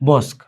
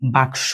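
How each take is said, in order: First: The s sound comes before the k sound. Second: The k sound comes before the s sound. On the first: "শটারে আগে আইনা উচ্চারণ করতেছ" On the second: "কি ছিল?"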